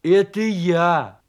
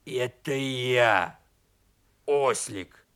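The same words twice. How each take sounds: First: Loud, drawn-out call; hearty, slow holler; shouting. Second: Slow, low donkey-turned-wolf voice; low, slow creature announcing himself; strange beastly voice. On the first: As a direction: shout it cheerily through a door. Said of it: "крикнул из-за двери медвежонок". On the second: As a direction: answer in a low, drawn-out beast voice. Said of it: "удивился своему голосу". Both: Acted.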